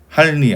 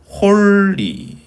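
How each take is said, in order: First: The first vowel is an open 'a' sound. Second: The first vowel is a rounded 'o' sound. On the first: The speaker calls it wrong. "이거는 할리 아니죠" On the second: The speaker calls it right. "홀리입니다"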